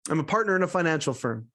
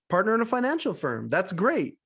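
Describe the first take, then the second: First: Said in the usual way. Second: Higher, lilting repeat of the answer; impressed echo. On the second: Retold or imitated. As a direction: echo it back like an interested host. Host echoes Mike's answer, impressed.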